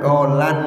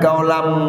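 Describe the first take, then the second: First: The word ends with an n sound. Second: The word ends with an m sound. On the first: The speaker calls it wrong. "tidak boleh dibaca kaulan" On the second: The speaker calls it right. "harusnya kaulam"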